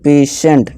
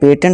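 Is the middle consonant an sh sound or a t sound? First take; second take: sh sound; t sound. First: The middle consonant is an sh sound. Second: The middle consonant is a t sound. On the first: The speaker calls it right. "इसे हम पेशेंट पढ़ेंगे" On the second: The speaker calls it wrong. "पेटेंट नहीं"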